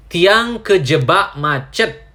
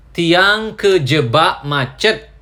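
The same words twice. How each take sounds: The two takes are said the same way.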